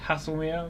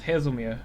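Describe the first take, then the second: First: The middle consonant is a hissing 's' sound. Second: The middle consonant is a buzzing 'z' sound. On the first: This is how it first came to mind. "I originally pronounced it as Hasselmere" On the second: This is how other people say it. "they started to pronounce it as Hazelmere"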